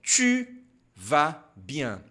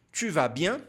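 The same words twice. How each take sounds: First: "Tu" on its own with pouted lips, then "vas bien"; slow demonstration. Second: "Tu vas bien" run together without a pause; pouted "Tu" flowing straight into "vas bien"; joined-up demonstration. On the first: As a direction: model "Tu vas bien" in pieces, pausing after "Tu". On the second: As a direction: model "Tu vas bien" as one phrase, lifting on "bien". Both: Shown as a demonstration. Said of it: "Então, pronunciando aqui".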